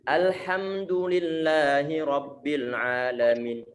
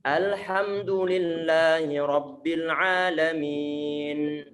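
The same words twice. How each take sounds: First: The final n is cut off completely. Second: The final n is held slightly longer. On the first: The speaker calls it wrong. "Nggak boleh begini. ... Nunnya mati sama sekali. Nggak ada penarikan" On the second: The speaker calls it right. "Perlu untuk antum tarik sedikit"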